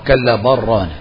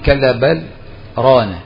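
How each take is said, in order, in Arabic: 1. تتصل "bal" بـ"rana" مباشرة دون سكتة. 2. توجد سكتة قصيرة بعد "bal" قبل "rana". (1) "ورد عن حفص الصلة" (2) "هذا اسمه سكت وليس وقف"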